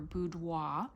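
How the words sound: It is said with a French accent.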